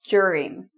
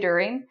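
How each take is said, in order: First: The word begins with a j sound. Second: The word begins with a plain d sound. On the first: "pronounce this like a J" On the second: "Some people say during. For me, that sounds kind of strange"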